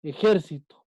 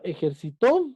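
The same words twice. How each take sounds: First: "Ejército" with the stress on the second syllable, JÉR; example word stress. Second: "ejercitó" with a rising, stressed final TÓ; stress on last syllable. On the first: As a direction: land on JÉR in "Ejército", then fall away. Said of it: "esta que ponemos aquí en el ejemplo". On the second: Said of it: "En la última parte". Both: Shown as a demonstration.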